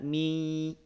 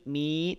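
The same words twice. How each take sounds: First: The vowel is held long, two beats. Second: The vowel is cut short and run on. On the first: The speaker calls it right. "Mi panjang dua harokat" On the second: The speaker calls it wrong. "mi tidak"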